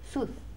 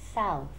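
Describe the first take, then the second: First: The vowel is said with a narrow mouth. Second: The vowel is said with a wide-open mouth. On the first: The speaker calls it wrong. "Some people say south. South. That's incorrect" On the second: The speaker calls it right. "You have to open your mouth"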